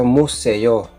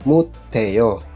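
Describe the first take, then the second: First: The middle consonant is an S sound. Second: The middle consonant is a T sound. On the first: The speaker calls it wrong. "hindi siya museo" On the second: The speaker calls it right.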